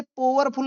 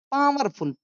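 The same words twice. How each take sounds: First: पावरफुल misread as 'po-war-ful'; an O sound opening पावरफुल; mistaken o vowel. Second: पावरफुल said as 'paa-war-ful'; open ow vowel. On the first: Teacher showing a misreading to avoid, पावरफुल as 'po-war-ful'. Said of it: "इसे पावरफुल नहीं पोने". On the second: Teacher giving the corrected reading, पावरफुल as 'paa-war-ful'. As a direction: open AA sound starting पावरफुल. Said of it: "बोलेंगे". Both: Shown as a demonstration.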